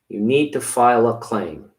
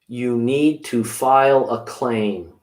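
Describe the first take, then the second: First: It is said at normal speed. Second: It is said slowly.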